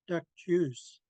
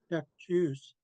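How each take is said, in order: First: The first word ends in a crisp k sound. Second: The first word ends in a crisp k sound.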